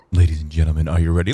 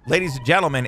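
First: Much lower, booming ringmaster build-up; deep announcer voice. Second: Said in the usual way. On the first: Acted. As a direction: announce it like a ringmaster revving up the crowd. Hypes the dive like an announcer.

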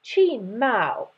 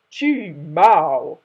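First: Said in the usual way. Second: Loud deep boom. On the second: Shown as a demonstration. Father lion silencing his cub, loud deep boom. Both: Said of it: "Maybe be like".

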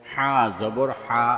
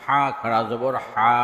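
First: Final "হা" cut short; quick short vowel. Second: Final "হা" held long; drawn-out vowel. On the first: Teacher demonstrating normal jabar, short "হা". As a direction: keep the last "হা" brief, not held. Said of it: "তাড়াতাড়ি করতে হয়". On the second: Teacher demonstrating khara jabar, long "হা". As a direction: stretch the last "হা" for one alif. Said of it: "একালিপ টেনে পড়তে". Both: Shown as a demonstration.

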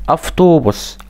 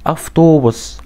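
Both takes have the same delivery.

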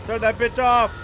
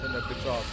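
First: Loud, high-pitched yell; urgent shout. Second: Said in the usual way. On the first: Real, not acted. Player desperate to get the TV off, shouting. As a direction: shout the order in alarm. Order repeated, now shouted.

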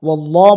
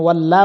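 First: ওয়াল্লাহ with a heavy, full "law"; thick ওয়াল্লাহ. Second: ওয়াল্লা with a light, thin "la"; thin wrong ওয়াল্লা. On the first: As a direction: fatten the middle of ওয়াল্লাহ. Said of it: "মোটা করে উচ্চারণ করতে হবে". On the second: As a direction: say ওয়াল্লা with the vowel kept thin. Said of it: "ওয়াল্লা বলা যাবে না". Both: Shown as a demonstration.

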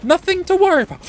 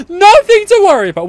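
First: High, soft-edged reassurance; singsong reassurance. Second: Higher, louder insistent cry; insistent reassurance. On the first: Player reassuring himself mid-fight, high light reassurance. Reassuring self, then louder repeat. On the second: Player insisting all is fine mid-fight, loud reassurance. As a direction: push the reassurance out high and strong. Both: Real, not acted.

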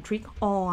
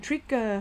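First: "trick or" with a full, separate "or"; over-full "or" in "trick or", shown as the one to avoid; unlinked "or". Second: "trick or" blended into "trigger"; linked "trick-a". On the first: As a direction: pronounce "or" fully after "trick". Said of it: "เราไม่ออกเสียง". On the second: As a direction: reduce "or" to a short "er" joined onto "trick". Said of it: "มันจะเป็น trigger อย่างงี้เนาะ". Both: Shown as a demonstration.

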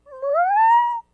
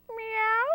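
First: A much higher, louder wailing cat cry; crying meow. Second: A high, curious little cat meow; questioning meow. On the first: Hungry cats wailing at Watilda, high loud meow. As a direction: yowl it like a starving kitten. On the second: Cats asking Watilda about dinner, high questioning meow. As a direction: cats asking their witch a question, meowing. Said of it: "the cats queried". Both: A narrator's reading.

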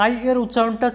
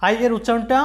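The two takes are said the same way.

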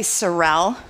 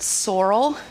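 First: "sorrel" stressed on the second syllable, suh-RELL; her own pronunciation. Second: "sorrel" stressed on the first syllable, SOR-ul; other people's pronunciation. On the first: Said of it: "I say sorrel". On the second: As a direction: say "sorrel" as SOR-ul, with a weak ending. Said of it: "some people call it". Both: Shown as a demonstration.

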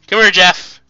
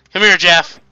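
No difference in how they are said.

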